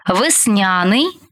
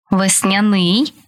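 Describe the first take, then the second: First: ВесНЯний, slow, stressed on НЯ; stress on middle syllable. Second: ВесняНИЙ, slow, stressed on the final syllable; stress on last syllable. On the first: Teacher showing variant stresses to student, middle-syllable stress on весняний. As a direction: stretch НЯ in весняний. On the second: Teacher showing variant stresses to student, final stress on весняний. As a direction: land on НИЙ in весняний. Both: Shown as a demonstration. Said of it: "Такий наголос ще називають варіантним".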